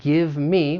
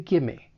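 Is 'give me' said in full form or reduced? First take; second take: full; reduced. First: Both words are said fully and separately. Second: The words blend together into 'gimme'. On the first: "we have give me" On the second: "we can reduce that to gimme"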